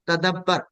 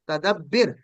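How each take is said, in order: First: The vowel before the last consonant is a. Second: The vowel before the last consonant is i. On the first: The speaker calls it right. "ये जेर आपने नहीं डालनी" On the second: The speaker calls it wrong. "स्लिम की तरह क्या होना चाहिए था, तदब्बिर"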